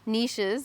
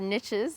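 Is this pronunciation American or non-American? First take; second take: non-American; American. First: The word is said in a non-American way. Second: The word is said the American way.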